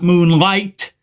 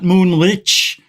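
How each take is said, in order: First: The name ends in an 'ight' sound. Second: The name ends in a soft 'ich' sound. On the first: "not moonlight" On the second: "Not moonlich"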